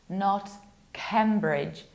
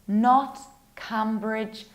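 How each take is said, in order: The two takes are said the same way.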